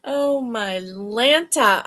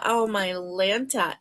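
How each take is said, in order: First: Slow, stretched exclamation; slow drawn out. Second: Said in the usual way. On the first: Real, not acted. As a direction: draw out each word.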